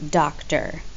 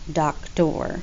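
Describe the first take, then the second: First: The stress is on the first syllable. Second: The stress is on the second syllable. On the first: The speaker calls it right. "Like we say doctor" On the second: The speaker calls it wrong. "not doctor"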